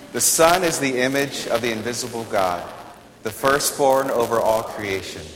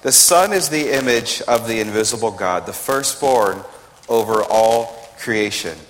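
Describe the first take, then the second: Both takes have the same delivery.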